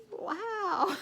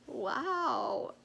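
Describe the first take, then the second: First: Much higher, louder disbelieving wow; second wow, pitched way up in mock shock; incredulous wow. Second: A flat, disbelieving wow, slightly higher; retold first stunned wow. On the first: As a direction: let the disbelief climb. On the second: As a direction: take it in, mildly stunned. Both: Stunned reaction to mean replies.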